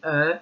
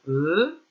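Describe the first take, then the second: First: E said as an open "eu". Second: E said as a closed, drawn-out "eu". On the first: Teacher contrasting sounds for pupils, E as open "eu". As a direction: say E as French "eu" in peur, mouth more open. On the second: Teacher showing pupils the closed sound, E as closed "eu". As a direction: say E as French "eu" in feu, lips nearly closed. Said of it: "fermé, on ferme la bouche". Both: Shown as a demonstration.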